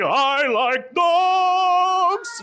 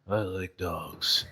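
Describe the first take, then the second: First: It is said loudly and excitedly. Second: It is said quietly and boringly.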